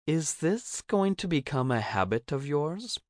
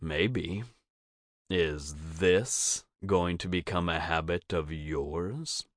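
First: High, lilting character voice with a rising question; higher, playful query; Cricket asking playfully. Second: Teasing, smug comeback, rising at the end; smirking. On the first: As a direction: ask it up high, teasing. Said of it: "she asks". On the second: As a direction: throw the question back with a smirk, leaning on THIS. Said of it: "giving her a smirk". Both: A narrator's reading.

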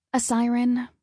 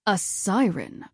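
First: Higher-pitched, reluctant confession; hesitant little admission. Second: Slow, disappointed echo; understated disappointment, drawn out. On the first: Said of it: "I admitted". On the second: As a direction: repeat it slowly, with a parent's disappointment. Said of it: "his voice took on a different tone". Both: A narrator's reading.

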